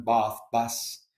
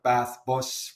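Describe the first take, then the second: First: Southern English long "ah" in bath; bath and bus with Southern English vowels; Southern English accent. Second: Bath and bus with Northern English vowels; short Northern "bath", rounded Northern "bus"; Northern English accent. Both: Shown as a demonstration. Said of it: "were told to be more southern".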